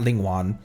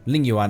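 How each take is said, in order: First: The second word begins with a w sound. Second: The second word begins with a y sound. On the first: The speaker calls it wrong. "not Ling Wan" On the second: The speaker calls it right. "Ling Yuan, not Ling Wan"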